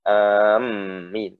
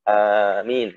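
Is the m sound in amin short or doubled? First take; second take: doubled; short. First: The m sound is doubled and heavy. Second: The m sound is short and light. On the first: The speaker calls it wrong. "bukan amin" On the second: The speaker calls it right. "tapi amin nggak pakai"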